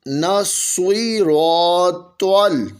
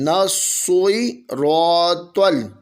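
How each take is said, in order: First: The s and t sounds are thick and heavy. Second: The s and t sounds are thick and heavy.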